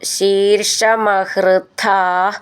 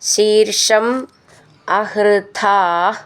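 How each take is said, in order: First: The two words run together without a break. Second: The two words are said separately with a break.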